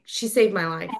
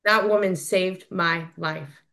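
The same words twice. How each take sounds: First: Said in the usual way. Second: "That woman saved my life" slow, each word weighted; slow emphasis. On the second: Real, not acted. Slow emphatic repeat of statement.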